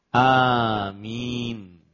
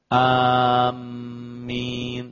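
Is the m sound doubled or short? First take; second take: short; doubled. First: The first vowel is long and the m is short. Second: The m is doubled and held longer. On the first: The speaker calls it right. "Tadi panjang A-nya dan mim-nya tanpa tasdid" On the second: The speaker calls it wrong. "pakai sabdu amin, itu keliru"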